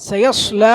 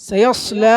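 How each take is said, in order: No difference in how they are said.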